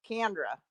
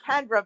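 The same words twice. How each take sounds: First: CANDRA with an a as in can; "Candra", first vowel like can; as heard. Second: KENDRA with an e as in Ken; "Kendra", first vowel like Ken; intended pronunciation. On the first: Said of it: "but I hear Candra". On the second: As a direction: say Kendra with a short e. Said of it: "you're saying Kendra". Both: Shown as a demonstration.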